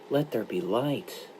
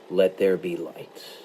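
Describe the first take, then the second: First: It is said as a sorrowful request. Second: It is said as an authoritative command.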